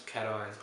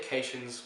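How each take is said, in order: First: "cations" said as CAT-eye-ons; preferred pronunciation. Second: "cations" said as KAY-shuns; alternative pronunciation. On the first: Teacher contrasting two versions, "cations" as CAT-eye-ons. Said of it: "I prefer cations". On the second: Teacher quoting what some people say, "cations" as KAY-shuns. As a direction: rhyme "cations" with nations. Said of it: "some people say cations". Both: Shown as a demonstration.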